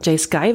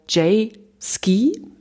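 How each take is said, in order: First: The last word ends with an 'eye' vowel. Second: The last word ends with an 'ee' vowel. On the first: The speaker calls it wrong. "würde ich es nicht nennen" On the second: The speaker calls it right. "würde ich sie aussprechen"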